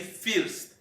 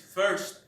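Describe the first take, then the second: First: The vowel sounds like a Spanish 'i'. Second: The vowel is not a Spanish 'i' sound. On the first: The speaker calls it wrong. "we pronounce that word as uh, we say first" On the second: The speaker calls it right. "that correct pronunciation is first"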